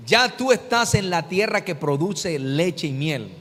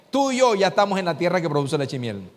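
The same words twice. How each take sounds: First: Slow, stress on "Ya", each word weighed; slow emphatic repeat. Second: Said in the usual way. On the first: Shown as a demonstration. Preacher repeats the promise to the congregation, stressing "Ya". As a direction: lean hard on "Ya", spell it out slowly. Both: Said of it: "Te lo voy a repetir".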